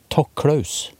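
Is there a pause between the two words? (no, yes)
no. The words run together without a pause. Someone is told to thank the named person. "sier det uten å på en måte ha en slags sånn komma i bunnen"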